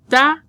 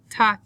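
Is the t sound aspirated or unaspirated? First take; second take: unaspirated; aspirated. First: The t is released with almost no breath. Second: The t is released with a strong puff of breath. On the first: The speaker calls it right. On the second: The speaker calls it wrong.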